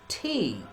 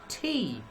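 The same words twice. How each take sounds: No difference in how they are said.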